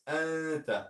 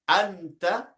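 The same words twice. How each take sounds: First: The n is hidden with a nasal sound. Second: The n is pronounced clearly and fully. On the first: The speaker calls it right. "It's Anta" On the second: The speaker calls it wrong. "It's not Anta like Izhar"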